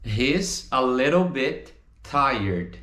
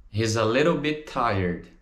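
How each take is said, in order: First: "He's, a little bit, tired" in slow pieces; slow, separated model. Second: "He's a little bit tired" in one linked run; joined up. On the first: Teacher models the answer for students, slow and separated. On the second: Teacher repeats the answer, words flowing together. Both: Shown as a demonstration.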